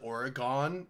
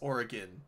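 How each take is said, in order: First: It is said the East Coast way. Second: It is said the local way. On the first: The speaker calls it wrong. "Everyone on the East Coast calls it Oregon" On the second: The speaker calls it right. "It's Oregon"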